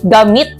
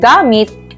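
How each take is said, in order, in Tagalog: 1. Nasa huling pantig ang diin. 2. Nasa unang pantig ang diin.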